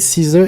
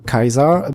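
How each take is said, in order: First: The name is said with an English pronunciation. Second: The name is said with a Latin pronunciation.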